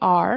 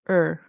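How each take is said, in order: First: The word has a full 'are' vowel. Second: The word is reduced to a short 'er'. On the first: "So it could be are" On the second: "In connected speech, it'll turn into more of an er sound"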